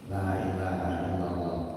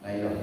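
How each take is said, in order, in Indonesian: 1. Setiap suku kata diucapkan lengkap, panjang maupun pendek. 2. Frasa itu diucapkan singkat, dengan beberapa bunyi dihilangkan. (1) "dengan tajwidnya, panjang pendeknya" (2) "tanpa kita sadari lagi hurufnya hilang"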